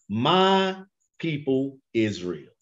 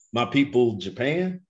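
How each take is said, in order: First: "my" slow and leaned on in "My people Israel"; stress on my. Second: Said in the usual way. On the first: Shown as a demonstration. Preacher slowly stressing "my" for the congregation. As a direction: draw out "my", slowly. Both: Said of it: "We got some pronouns".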